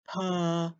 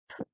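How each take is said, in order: First: The p is followed by an added uh vowel. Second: The p is a bare puff of air. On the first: The speaker calls it wrong. "We don't say puh to make the p sound. We don't want to add that uh sound" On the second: The speaker calls it right. "It's just p"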